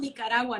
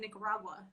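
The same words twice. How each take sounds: First: The name is said with Spanish pronunciation. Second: The name is said with English pronunciation. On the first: The speaker calls it right. "I'm from Nicaragua" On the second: The speaker calls it wrong. "not Nicaragua"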